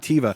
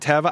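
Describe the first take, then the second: First: It is said with an American pronunciation. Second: It is said with the native Hebrew pronunciation.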